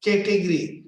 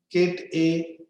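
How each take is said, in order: First: Said in the usual way. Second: "category" broken as ca-te-go-ry; split in four syllables. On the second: Shown as a demonstration. Teacher showing four syllables to learners, broken apart. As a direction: say "category" in four separate beats. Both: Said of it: "four syllables".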